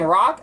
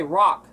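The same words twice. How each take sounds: First: Said in the usual way. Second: "rock" with the R turned to a W; her rock. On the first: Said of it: "instead of saying rock, I say rock". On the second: Shown as a demonstration. Showing her own rock. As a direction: say "rock" like "wock". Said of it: "I say rock".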